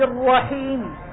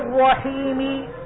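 First: The final consonant ends with a brief, cut-off vowel. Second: The final consonant ends with a full vowel. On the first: The speaker calls it right. "هذا جزء الحركة" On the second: The speaker calls it wrong. "لأنني ما أقول الرحمن الرحيم هذه حركة كاملة"

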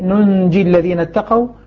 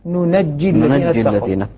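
First: The first word has a single, unstressed jim. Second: The first word has a doubled jim after open nun. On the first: "قراءة الكسائي" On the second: "ومن ثقل فتح النون"

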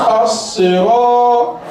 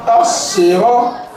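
Both takes have the same delivery.

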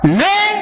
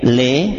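First: The call is said loud and high. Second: The call is said softly and calmly. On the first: The speaker seems to be angry. The speaker calls it wrong. "dengan kita naikkan intonasinya" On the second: The child is being called kindly. The speaker calls it right. "sudah baik-baik le"

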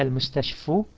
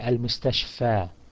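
First: The word ends in an 'oo' sound. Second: The word ends in a long 'a' sound. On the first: The speaker calls it wrong. "You don't say المستشفو" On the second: The speaker calls it right. "it's actually a long A"

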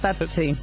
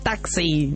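First: The x is pronounced like 'ch'. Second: The x is pronounced like 'ks'. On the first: Someone with a speech problem said it. The speaker calls it wrong. "no sé qué problemita tenía con la X, no la podía pronunciar" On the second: Someone repeated it back to correct him. The speaker calls it right. "cuando vos le repetís, a él"

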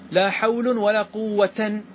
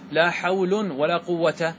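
First: The last word ends with the -tan ending. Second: The last word ends without the -tan ending. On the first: A forbidden grammatical reading. The speaker calls it wrong. "هذا هو الممنوع" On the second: A permitted grammatical reading. The speaker calls it right. "جائز"

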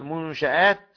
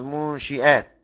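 First: The vowel after the sh sound is a. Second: The vowel after the sh sound is i. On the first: The ships are the ones that were built. "والباقي المنشآت كحفص" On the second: The ships are the ones that set out. "والمنشئات اسم فاعل"

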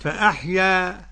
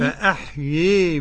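First: The final vowel is an open 'a'. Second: The final vowel leans strongly toward 'ee'. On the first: "كيف يكون الفتح؟" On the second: "إمالة كبرى"

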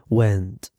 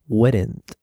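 First: The word is said with no R sound. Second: The word is said with an R sound. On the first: The speaker calls it right. "No hay ninguna R, went" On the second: The speaker calls it wrong. "we would be taught something like weren't. But you don't say weren't"

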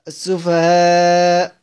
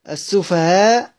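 First: The final long vowel is held moderately. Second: The final long vowel is held briefly. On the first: "توسط" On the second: "كسر"

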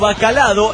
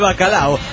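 First: A d sound is added before the final o. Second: There is no d sound before the final o. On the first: The speaker calls it wrong. "frases tan estúpidas como" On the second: The speaker calls it right. "en vez de bacalao"

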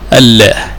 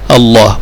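First: The L sound is light and thin. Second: The L sound is heavy and emphatic. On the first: The speaker calls it wrong. "لا يجوز أن تقول الله" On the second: The speaker calls it right. "وتفخم فيه اللام دائما"

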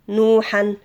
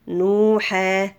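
First: The word ends with a nasal 'han' sound. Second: The word ends with a long 'haa' vowel.

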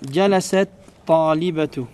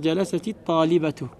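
First: The first word ends in t with no vowel. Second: The first word ends in ti, linking the words.

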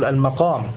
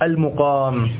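First: The first vowel after the M is open 'a'. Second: The first vowel after the M is not 'a'. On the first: It means rank or status. The speaker calls it wrong. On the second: It means staying in a place. The speaker calls it right.

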